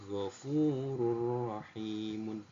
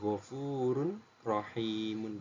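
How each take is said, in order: First: The n merges directly into the r without nasalization. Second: The n is pronounced separately before the r. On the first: The speaker calls it right. "tanpa mendengung" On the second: The speaker calls it wrong.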